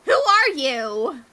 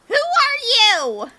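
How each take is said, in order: First: It is said at a normal volume. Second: It is shouted loudly.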